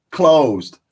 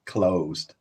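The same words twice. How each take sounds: First: Closed said louder and higher, hit hard; stressed closed. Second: Closed. dropped low and soft, falling; quiet repeat. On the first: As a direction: land closed like a verdict. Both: Real, not acted.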